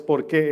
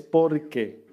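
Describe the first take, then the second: First: "por qué" with a drawn-out qué, as a question; the wrong take, lean and hold on qué. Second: "por qué" stressed on por, falling as one word; the right take: hit por, let it fall; correct porque. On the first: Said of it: "no es". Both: Shown as a demonstration.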